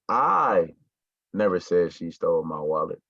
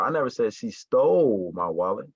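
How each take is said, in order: First: The stress falls on the word I. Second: The stress falls on the word stole. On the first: Someone else said it. "So that means that I didn't say it, but one of y'all said it" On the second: She took it but did not steal it. "So it's like she didn't steal my wallet"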